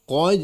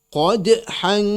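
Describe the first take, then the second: First: The final consonant bounces with no extra vowel sound. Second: An extra glottal vowel sound follows the final consonant. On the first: The speaker calls it right. "ya betul" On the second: The speaker calls it wrong.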